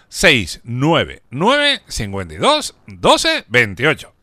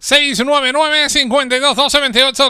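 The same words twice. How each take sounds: First: The number is said more slowly. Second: The number is said at normal speed.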